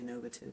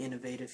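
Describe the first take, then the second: First: The word is said the British way. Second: The word is said the American way. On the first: "but they say innovative" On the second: "It's really innovative here in America"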